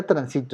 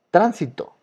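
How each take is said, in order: First: Transito stressed on SI; stress on middle syllable. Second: Tránsito with TRÁN punched high; stress on first syllable. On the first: Teacher rules out transito, middle syllable stressed. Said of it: "ni siquiera transito". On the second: Teacher gives students the example word tránsito, first syllable stressed. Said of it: "escuché la palabra tránsito". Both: Shown as a demonstration.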